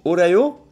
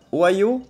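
First: "Ohio" as "o-ra-yo" with a French R. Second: "Ohio" said o-a-yo, no R; plain "Ohio" as a question. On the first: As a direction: put a throaty R in "Ohio". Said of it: "faudrait penser au". ("Ohio" prononcé avec un R) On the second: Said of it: "l'aspiration était après le O". ("Ohio" sans R) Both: Shown as a demonstration.

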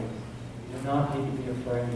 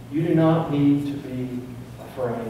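First: Dropped much softer, a gentle reassurance; softer repeat. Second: Said in the usual way. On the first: Real, not acted. Reassuring the church softly not to be afraid. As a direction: pull back and say it softly, like a promise.

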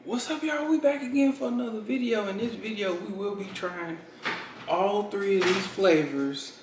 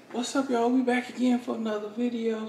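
First: High, bright youtuber intro; vlog intro. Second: Upbeat youtuber intro; vlog intro. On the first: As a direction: start the video with energy. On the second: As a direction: hype up the intro. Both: Acted.

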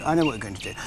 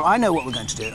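First: A lower, softer second go at the line; lower, quieter repeat. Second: Said in the usual way. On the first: Real, not acted.

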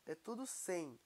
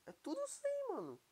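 First: Said in the usual way. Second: Amazed repeat. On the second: Real, not acted. Gamer marvelling at maxed-out armour, excited and high-pitched.

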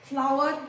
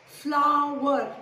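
First: Said in the usual way. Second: Flower stretched into two firm beats; syllable by syllable. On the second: Shown as a demonstration. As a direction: draw out both syllables of Flower. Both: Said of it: "Two syllables".

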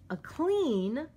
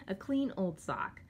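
First: "clean" punched high and loud; stress on clean. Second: Said in the usual way. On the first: Real, not acted. Vlogger showing an old sock, stressing "clean" loud and high. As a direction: lean hard on the word "clean". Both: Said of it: "I wanna emphasize the word clean".

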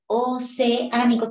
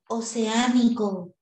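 First: "Oceánico" drawn out, e and á held apart; slow "Oceánico" with a clear break between e and á; separated vowels. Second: Said in the usual way. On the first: Shown as a demonstration. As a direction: stretch "Oceánico" slowly as o-ce-á-ni-co. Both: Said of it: "esa separación".

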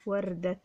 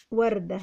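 First: وردة ending in a sounded "-tan"; with tanween. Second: Said in the usual way. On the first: Shown as a demonstration. Teacher adding tanween to وردة, careful "-tan" ending. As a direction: say وردة as "wardatan", softly. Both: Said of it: "عايزين نخليها بالتنوين".

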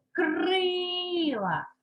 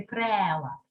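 First: Крила with a long, high «и»; stressed first syllable. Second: Крила mispronounced as «крела», with «е»; lower-pitched крела, «е» replacing «и»; wrong vowel shown. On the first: Teacher gives pupils the check word, крила with drawn-out «и». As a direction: stretch the first vowel of крила. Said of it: "щоб воно стало наголошеним". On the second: Teacher shows what cannot be said, крела with wrong «е». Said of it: "Ми вже ж ніяк не можемо сказати". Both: Shown as a demonstration.

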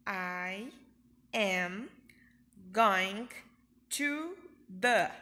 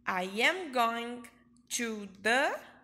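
First: I am going to the said word by word, going and the punched loud; teacher drilling word by word; slow drill. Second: I am going to the said slowly and louder, as one phrase; smooth it out but keep it slow; teacher modelling the phrase; slow model. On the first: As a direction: chop it into single words. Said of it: "eu respondo". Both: Shown as a demonstration.

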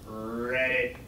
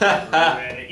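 First: Low croaking "Read it" like a frog. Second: A louder croaked "Read it" stressing "read"; frog voice. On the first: The frog answers the chicken, croaking low. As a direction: croak it out deep and soft. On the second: Repeating the frog punchline, croaking. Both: Retold or imitated. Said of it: "Yeah, like a frog".

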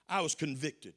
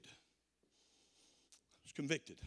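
First: Said in the usual way. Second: Hushed, slow repeat of I was convicted, almost to himself; quiet. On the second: Real, not acted. Preacher quietly confesses his conviction to the congregation, hushed. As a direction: let I was convicted sink in, soft and slow.

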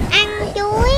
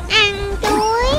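Both takes have the same delivery.

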